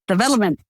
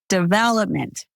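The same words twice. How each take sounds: First: The syllables are stressed about evenly. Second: The stress falls strongly on the second syllable. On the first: "They're less likely to put emphasis on words" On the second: "we put emphasis on vel"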